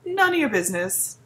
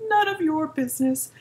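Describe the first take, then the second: First: "none of your business" run together as "nunya business"; slangy, run-together "none of your business"; slurred slang. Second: "None of your business" with each word separate; fully pronounced "of your" in "None of your business"; enunciated. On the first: Slangy take, then spelled out. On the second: Same words spelled out clearly. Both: Shown as a demonstration.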